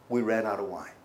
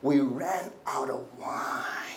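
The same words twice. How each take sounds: First: It is said as a plain neutral request. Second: It is said in a pushy, demanding tone.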